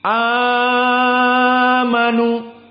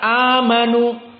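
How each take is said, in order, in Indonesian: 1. Vokal panjang ditarik panjang, sekitar enam ketukan. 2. Vokal panjang ditahan sebentar, sekitar dua ketukan. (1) "yuqra bil isba'" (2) "yaqra bil mad qasr harokatan"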